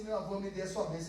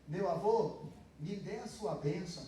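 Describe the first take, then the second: First: Spoken fast. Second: Full slow form. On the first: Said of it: "a gente não fala assim". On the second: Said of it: "é como se eu estivesse dizendo". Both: Shown as a demonstration.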